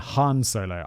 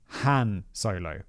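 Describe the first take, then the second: First: The name is pronounced in a German-sounding way. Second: The name is pronounced in a plain English way. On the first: The speaker calls it wrong. "rather than Han Solo. I was like, I just assumed he had a German name" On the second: The speaker calls it right. "it's actually Han Solo"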